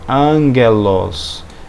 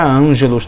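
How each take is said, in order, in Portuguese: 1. O g é um som oclusivo duro. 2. O g é um som suave, parecido com zh. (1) "sempre som de gagegi gogu" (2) "nunca ângelos também"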